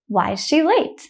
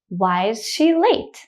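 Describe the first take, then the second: First: The sentence is said quickly and smoothly. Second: The sentence is said slowly and carefully. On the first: "the next time I will say it quickly like a native speaker" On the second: "The first time I will say it slowly"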